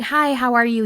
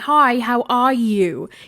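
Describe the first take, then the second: First: It is said in an American accent. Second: It is said in an English accent.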